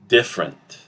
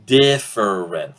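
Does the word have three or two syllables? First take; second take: two; three. First: It is said with two syllables. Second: It is said with three syllables. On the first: "We reduce both E sounds and we get something like this" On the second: "Instead of different, three syllables"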